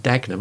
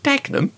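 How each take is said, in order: First: Said in the usual way. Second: Dagenham? leaps far higher in mock disbelief; incredulous Dagenham. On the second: Teacher echoing a student's answer in disbelief, incredulous. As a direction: throw Dagenham back as if it's absurd.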